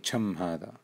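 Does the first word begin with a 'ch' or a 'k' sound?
ch. The first word begins with a ch sound. This is how the phrase is said in Kuwait. "they will say cham hada"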